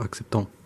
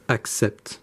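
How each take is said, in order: First: The final ending is pronounced aloud. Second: The final ending is silent. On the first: The speaker calls it wrong. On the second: The speaker calls it right. "This is never pronounced"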